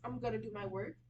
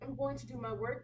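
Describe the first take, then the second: First: "Going to" is reduced to "gonna". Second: "Going to" is said in full. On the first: The speaker calls it right. "that reduction" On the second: The speaker calls it wrong. "we don't really say I'm going to go do my work"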